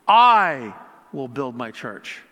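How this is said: The word 'I' is stressed. "putting an emphasis on each word"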